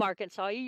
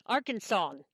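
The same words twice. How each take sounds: First: "Arkansasier" said as the wrong form to avoid; wrong name form. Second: "Arkansan." said clearly as ARK-an-san, the right way; correct pronunciation. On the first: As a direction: give "Arkansasier" as the mistaken name for a local. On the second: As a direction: model "Arkansan." carefully as the correct form. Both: Shown as a demonstration. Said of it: "That's how you pronounce it".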